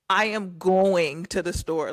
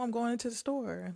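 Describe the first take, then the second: First: Every word is said fully and carefully. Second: The words are run together in a relaxed way. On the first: Speaking properly takes a lot of effort. The speaker calls it wrong. "you really have to be like" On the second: It is the natural everyday way to speak. The speaker calls it right. "just put a little slang on it"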